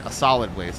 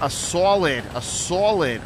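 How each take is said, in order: First: Said in the usual way. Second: Hammed-up Boston accent on "solid"; ridiculous Boston accent, "SAW-lid". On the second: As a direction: say "solid" with a broad, rounded Boston vowel. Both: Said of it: "Throw that ridiculous Boston accent in there".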